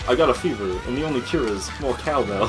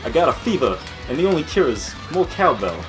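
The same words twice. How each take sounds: First: It is said in the speaker's ordinary voice. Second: It is said in a put-on character voice.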